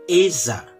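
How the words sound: The double L sounds like a zh sound. "Seolah-olah bunyinya antara J, antara J dan gabung dengan Y"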